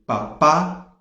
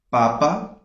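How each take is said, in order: First: Papá with the final PÁ punched; stress on last syllable. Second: Papa with the first PA stressed; stress on first syllable. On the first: Teacher recapping the accented word, final-syllable stress. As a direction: let papá land hard on its last syllable. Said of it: "tem acento na última sílaba". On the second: Teacher recapping the unaccented word, first-syllable stress. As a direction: put the beat on the opening syllable of papa. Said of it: "não tem acento". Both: Shown as a demonstration.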